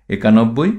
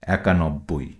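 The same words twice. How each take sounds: First: একানব্বই with a closed e at the start; spelling pronunciation with e. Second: একানব্বই with an open æ at the start; spoken form with æ. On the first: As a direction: read একানব্বই as written, "ekanobboi", tone rising. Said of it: "তদ্ভব". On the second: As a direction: say একানব্বই as "ækanobboi", lower, softer and falling. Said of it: "উচ্চারণ হবে". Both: Shown as a demonstration.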